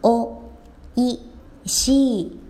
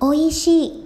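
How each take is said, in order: First: The word is said more slowly. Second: The word is said at normal speed.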